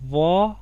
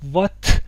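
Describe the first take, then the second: First: "وا" open, with no final T; بدون ت. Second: "وات" louder, with a released final T. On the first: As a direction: leave the T off: "وا". («وا» بدون صدای ت) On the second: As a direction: sound the T at the end of "وات". («وات» با ت واضح) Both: Shown as a demonstration. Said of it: "ت رو تلفظ نمی کنم".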